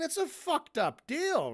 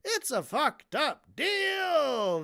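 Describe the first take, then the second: First: Said in the usual way. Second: High, slow FUCKED UP DEAL with DEAL stretched long; exasperated, elongated DEAL at high pitch; drawn-out exclamation. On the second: Real, not acted. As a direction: punch each word, then stretch DEAL. Repeats it drawn out.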